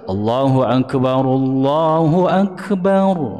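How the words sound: The two phrases are joined in one breath.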